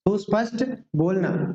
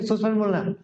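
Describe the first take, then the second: First: A short gap separates the two words. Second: The two words run together with no gap. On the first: The speaker calls it right. "दोनों के बीच में gap होना चाहिए" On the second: The speaker calls it wrong. "ऐसा चिपका कर नहीं"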